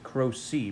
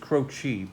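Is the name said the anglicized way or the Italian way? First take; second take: anglicized; Italian. First: The name is pronounced in an anglicized way. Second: The name is pronounced the Italian way. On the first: The speaker calls it wrong. "We pronounce it Croce" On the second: The speaker calls it right. "The correct pronunciation is Croce, but um, that's the Italian pronunciation"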